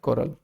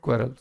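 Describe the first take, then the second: First: The word begins with a 'kaw' sound. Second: The word begins with a 'kweh' sound. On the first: The speaker calls it right. "सीधा सा word होता है कोरल" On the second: The speaker calls it wrong. "The word is not क्वेरल"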